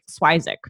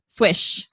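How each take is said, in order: First: It has two syllables, ending in zik. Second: It sounds like swish, ending in sh. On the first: This is a made-up version the family tells everyone. "his grandmother made up a pronunciation" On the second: This is a simplified version one relative uses. "like my mom... she just says swish. Like swoosh"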